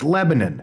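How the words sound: It is said the Indiana way.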